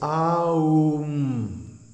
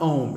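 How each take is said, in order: First: Each of three sounds gets a full beat. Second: The word is said as one short syllable. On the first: The speaker calls it right. "A, U, M, and each one gets a full beat" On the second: The speaker calls it wrong. "don't mispronounce it Om"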